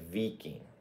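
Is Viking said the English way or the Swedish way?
Swedish. The word is said the local Swedish way. The speaker calls it right. "It's Viking"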